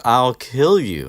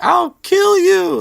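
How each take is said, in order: First: A lightly voiced louder, slower threat; milder Filch threat. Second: Very high, loud, slow threatening shriek; Filch's screech. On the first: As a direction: threaten him, toned down. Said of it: "Filch goes with". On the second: Retold or imitated. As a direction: scream the threat with all you have. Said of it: "and he's like".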